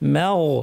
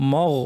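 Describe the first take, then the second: First: The m is said light and thin. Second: The m is said heavy and full-mouthed. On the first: The speaker calls it right. "মিমটা পাতলা" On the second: The speaker calls it wrong. "অনেকে দুটোই ভারী করে ফেলেন, বলেন মগ, মগ ঠিক না"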